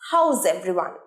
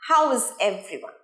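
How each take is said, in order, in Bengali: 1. 'How is' একটি সিলেবলে জোড়া লেগে যায়। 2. 'How is' দুটো আলাদা শব্দ হিসেবে বলা হয়।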